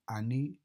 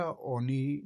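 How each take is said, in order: First: انی with short open start, final i; as pronounced. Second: آنی read as spelled, long initial a; as written. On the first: Teacher gives learners the spoken sound انی, short first vowel. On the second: Teacher shows learners the written form آنی, read as spelled. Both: Shown as a demonstration.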